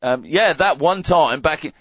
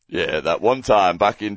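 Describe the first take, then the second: First: It is said in a put-on accent. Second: It is said in a natural voice. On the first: The speaker calls it wrong. "No accents, no accents" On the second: The speaker calls it right. "just do it in your voice"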